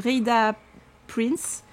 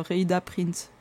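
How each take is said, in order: First: Slow, tentative English accent on the name; attempted English accent. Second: "Rhaida Prince" in a plain French accent; French pronunciation. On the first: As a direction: try an English accent on "Rhaida Prince". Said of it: "Je voulais faire mon accent anglais". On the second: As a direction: give up and say the name the French way. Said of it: "en français". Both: Shown as a demonstration.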